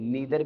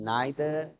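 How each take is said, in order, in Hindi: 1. पहला स्वर 'ee' जैसा सुनाई देता है। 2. पहला स्वर 'eye' जैसा सुनाई देता है। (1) "इसे हम नीदर भी पढ़ते हैं" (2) "नाइदर दोनों तरह से प्रोनाउंस होता है"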